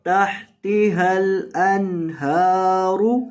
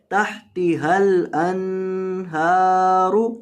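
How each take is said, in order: First: तहतिहल अनहारु with the नून said plainly, not nasalised; no ghunna. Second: तहतिहल अनहारु with the नून wrongly nasalised; students' mistake. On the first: Teacher showing students the correct अनहारु, नून without ghunna. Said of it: "नून के ऊपर आपने गुन्ना नहीं करना". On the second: Teacher imitating students' common mistake, नून of अनहारु nasalised. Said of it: "अक्सर तलबा यहाँ नून के ऊपर गुन्ना कर देते हैं". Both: Shown as a demonstration.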